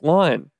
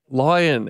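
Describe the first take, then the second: First: The word is said with one syllable. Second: The word is said with two syllables. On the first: The speaker calls it wrong. "And I was like, line" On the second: The speaker calls it right. "no, say lion"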